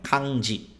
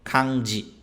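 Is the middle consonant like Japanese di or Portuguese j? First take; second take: Japanese di; Japanese di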